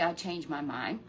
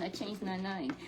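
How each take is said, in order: First: "mind" said clearly with m and d, lower; corrected mind. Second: "name" said as the slip, with n, before the correction; misspoken name. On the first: Grandparent corrects the quote to Chesley, "mind" clearly. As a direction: fix the slip, say "mind" properly. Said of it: "he didn't say". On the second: Grandparent to Chesley, slip saying "name". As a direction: say "name" where "mind" belongs, a slip. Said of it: "No, he didn't say". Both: Shown as a demonstration.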